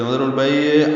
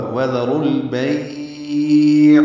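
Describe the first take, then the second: First: "وذر البیع" with the ayn jolted like qalqala; wrong ayn. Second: "وذر البیع" drawn out very slowly and louder, ayn clear from the throat; correct ayn. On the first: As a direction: shake the final ayn the wrong way. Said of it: "یہ دونوں غلط ہیں". (عین پر قلقلہ کے ساتھ غلط تلفظ) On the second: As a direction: stretch the ba and sound ayn cleanly. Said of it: "عین وسط حلق سے ادا ہوگا". (عین کو حلق سے صاف، بغیر قلقلہ) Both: Shown as a demonstration.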